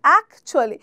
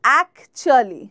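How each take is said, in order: First: The middle syllables are clipped and run together. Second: Every syllable is spoken out separately and fully. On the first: The speaker calls it right. "The correct pronunciation is অ্যাকচুয়ালি ... চুয়ালিটা আমরা কেটে বলছি" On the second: The speaker calls it wrong. "আমরা বলি অ্যাকচুয়ালি অ্যাকচুয়ালি কিন্তু অ্যাকচুয়ালি is not the correct pronunciation"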